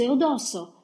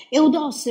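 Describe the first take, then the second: First: High anguished call, dropping to normal volume; fading desperate cry. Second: High, loud anguished call of his name; desperate cry. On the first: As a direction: call his name again as the voice gives way. (grido disperato che si spegne) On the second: (grido disperato, acuto e forte) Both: A narrator's reading. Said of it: "continuava a gridare".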